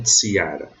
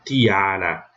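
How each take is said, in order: First: "tiara" said as tsi-A-ra, with a hissed ts; wrong reading with tsi. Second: "tiara" said as ti-A-ra, with a plain t; initial hard T. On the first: Teacher showing students how not to read it, demonstrating the tsi sound. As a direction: start "tiara" on ts in place of t. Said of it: "não tiara". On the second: Teacher showing TI at the start of a word, demonstrating pronunciation. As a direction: begin "tiara" on a pure t, no hiss. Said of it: "eu leio tiara". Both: Shown as a demonstration.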